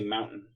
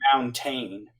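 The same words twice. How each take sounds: First: The middle T is dropped. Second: The middle T is clearly pronounced. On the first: This is how people in Utah say it. The speaker calls it wrong. "We say mountain" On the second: This is the standard pronunciation. The speaker calls it right. "it's supposed to be mountain"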